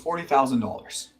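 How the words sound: The voice drops and flattens at the end. It sounds certain and leaves no room for negotiation. The speaker calls it right. "Your voice drops and it flattens out"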